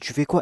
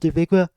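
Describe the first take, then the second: First: It is said in an annoyed, angry tone. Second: It is said in a mocking, imitating tone.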